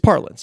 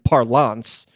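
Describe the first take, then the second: First: The word is given a plain, ordinary pronunciation. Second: The word is given a fancy, affected pronunciation. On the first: The speaker calls it right. "It's parlance" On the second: The speaker calls it wrong. "if you're going to like guss it up and do"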